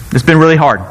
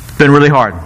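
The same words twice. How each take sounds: First: "been" leaned on, a light Trump voice; Trump impression. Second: "really" leaned on, a light Trump voice; Trump impression. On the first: [name] as Trump, stressing "been" lightly. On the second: [name] as Trump, stressing "really" lightly. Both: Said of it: "I started sounding like Trump there".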